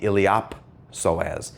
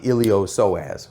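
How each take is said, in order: First: The P is clearly sounded before 'soas'. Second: The P is silent before 'soas'. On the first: The speaker calls it right. "the P is pronounced when it's in the middle of a word, it gets voiced" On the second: The speaker calls it wrong. "It's not the ilio-psoas. A lot of people mispronounce that"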